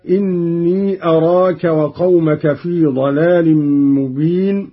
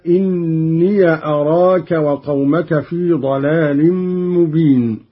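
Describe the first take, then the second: First: Said in the usual way. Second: إني as "inniya", short a on the ya; ya with fatha. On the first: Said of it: "قرأ قالون بفتح ياء الإضافة". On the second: Shown as a demonstration. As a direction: open the ya of إني before أراك. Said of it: "بفتح ياء الإضافة".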